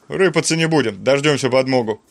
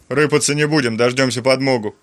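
The two takes are said the same way.

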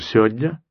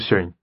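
First: More sounds are dropped than before. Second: The word is squeezed down to very few sounds. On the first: "может быть, даже" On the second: "а может быть, даже"

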